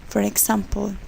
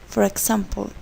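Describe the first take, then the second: The two takes are said the same way.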